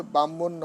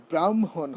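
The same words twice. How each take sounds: First: ব্রাহ্মণ said "bammon", no r or h; wrong pronunciation. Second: ব্রাহ্মণ as "bram-hon", r and h both sounded; correct pronunciation. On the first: Teacher showing devotees the error, careless "bammon". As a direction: double the m in ব্রাহ্মণ, dropping r and h. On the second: Teacher modelling the word for devotees, careful "bram-hon". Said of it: "ব্রাহ্মণ হবে". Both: Shown as a demonstration.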